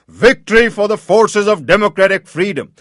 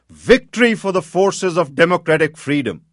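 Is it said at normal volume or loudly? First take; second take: loudly; normal. First: It is said loudly, near shouting. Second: It is said at a normal volume.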